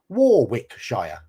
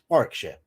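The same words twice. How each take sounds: First: Every letter is sounded, including the middle w. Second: The middle w is silent, said like Worrick-sher. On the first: This is how the spelling looks. The speaker calls it wrong. "which is spelt Warwickshire" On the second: This is how locals say it. The speaker calls it right. "but it's Warwickshire"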